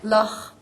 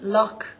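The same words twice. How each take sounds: First: It ends in a throaty, breathy ch sound. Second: It ends in a hard k sound.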